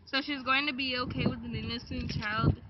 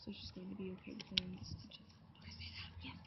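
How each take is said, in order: First: Said in the usual way. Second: Unvoiced prompt whisper. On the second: Real, not acted. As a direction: whisper the line as a cue.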